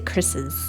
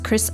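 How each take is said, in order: First: The name is said with an added 'iz' syllable. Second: The name is said without an added syllable. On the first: "or do you say Chris's? I'm gonna say Chris's" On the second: "would you say just Chris eyes"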